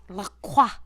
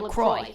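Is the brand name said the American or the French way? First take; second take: French; American. First: It is said with a French pronunciation. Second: It is said with an American pronunciation. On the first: "In French, it's supposed to be La Croix. That's how you would say it" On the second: "we're Americans ... we're going to say it LaCroix"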